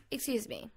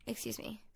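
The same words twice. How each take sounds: First: Said in the usual way. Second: Mock offended. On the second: Shown as a demonstration.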